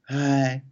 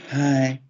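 First: The voice sounds soft and warm. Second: The same.

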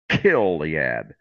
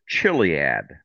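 First: The word begins with a hard k sound. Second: The word begins with a soft ch sound. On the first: The speaker calls it right. "So the CH is a hard K" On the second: The speaker calls it wrong. "you would probably pronounce it Chiliad. But it's really not pronounced that way"

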